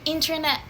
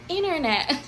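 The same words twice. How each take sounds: First: It is said in a non-American accent. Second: It is said in an American accent. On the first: "instead of saying internet" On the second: "let's start imitating their accent"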